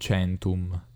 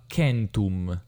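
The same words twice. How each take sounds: First: It is said in Italian-style ecclesiastical pronunciation. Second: It is said in the classical Latin pronunciation. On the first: This is the later church pronunciation. The speaker calls it wrong. "non centum" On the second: This is how it was said in ancient Latin. The speaker calls it right.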